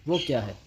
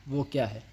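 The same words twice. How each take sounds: Both takes have the same delivery.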